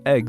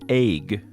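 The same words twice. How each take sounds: First: The vowel sounds like 'eh' in 'bed'. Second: The vowel sounds like 'ay' in 'day'. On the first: The speaker calls it right. "instead of egg" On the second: The speaker calls it wrong. "pronounce it as if it's spelled A Y G"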